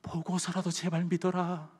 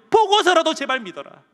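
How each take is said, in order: First: Soft, slow, gentle plea; 꾸짖지 않는 예수님의 부탁. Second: Loud, high-pitched plea to believe; 예수님의 간절한 외침. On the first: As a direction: plead quietly instead of scolding. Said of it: "그렇게 이야기하지 않고요". (작고 느리게 달래듯) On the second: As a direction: cry out the appeal urgently. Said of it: "뭐라고 말씀하시냐면". (높고 크게 외치는 호소) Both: Acted.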